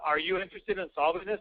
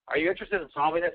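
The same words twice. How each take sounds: First: It sounds stiff, flat and rehearsed. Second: It sounds relaxed, natural and conversational. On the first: The speaker seems to be reading a script. The speaker calls it wrong. "I sound like a robot, right? ... I sound rehearsed" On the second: The speaker seems to be talking with real assertiveness. The speaker calls it right. "Oh, that's much better"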